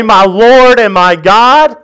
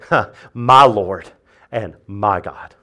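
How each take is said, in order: First: Higher, louder, slow proclaiming; joyful exclamation. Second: Low, slow, soft awe; awed confession. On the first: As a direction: lift it up in triumph. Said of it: "to be able to say". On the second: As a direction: breathe it out in wonder. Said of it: "but say". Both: Acted.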